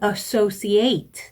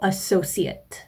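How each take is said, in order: First: The last syllable sounds like 'eight'. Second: The last syllable is a short 'at' sound. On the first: It is used as a verb. "동사로 시험에 나왔다면" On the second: It is used as a noun or adjective. "명사로 출제가 되었습니다... 마지막 발음을 at"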